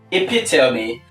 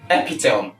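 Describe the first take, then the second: First: The word is said with four syllables. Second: The word is said with three syllables. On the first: The speaker calls it right. "it's transcribed as epitome" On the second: The speaker calls it wrong. "you are reducing the syllables from four to three"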